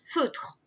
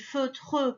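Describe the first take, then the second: First: The final e is silent. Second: The final e is clearly sounded. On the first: It is the normal way to say the word. "ça se prononce juste feutre" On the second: It shows the spelling has a final letter. "moi je dis feutre pour te dire qu'il y a un E"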